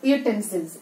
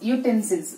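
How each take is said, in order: First: The word begins with a y glide, yoo. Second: The word begins with a y glide, yoo.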